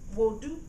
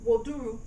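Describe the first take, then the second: First: The word is shortened, with the last syllable dropped. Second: The word is said in full, with three syllables. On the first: "they say wodu. So this is optional" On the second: "instead of saying woduru"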